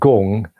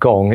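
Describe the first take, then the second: First: The vowel sounds like 'oo' in 'goon'. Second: The vowel sounds like 'o' in 'song'. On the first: The speaker calls it right. "G with two O's, N G is probably a better way of pronouncing it" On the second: The speaker calls it wrong. "I often s- pronounce it wrong myself"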